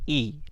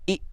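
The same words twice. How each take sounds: First: The vowel is said smoothly and evenly. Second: The vowel is cut off with a jerk. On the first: The speaker calls it right. "बल्कि ई" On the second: The speaker calls it wrong. "झटका नहीं"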